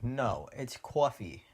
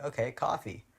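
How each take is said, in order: First: New Jersey "coffee", drawn out as CAW-fee; slow New Jersey correction, "coffee" as CWAW-fee; New Jersey accent. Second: "coffee" with open ah, KAH-fee; Californian pronunciation. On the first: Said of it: "She's from New Jersey". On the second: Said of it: "And I'm like". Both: Retold or imitated.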